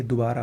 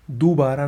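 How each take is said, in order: First: दोबारा with short first "du"; a quick u in दोबारा; correct pronunciation. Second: दोबारा with long first "doo"; wrong pronunciation. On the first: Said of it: "होता है". (दोबारा को "दुबारा" बोलें) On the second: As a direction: stretch the first vowel of दोबारा to oo. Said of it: "नहीं". (दोबारा को "दूबारा" बोलें) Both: Shown as a demonstration.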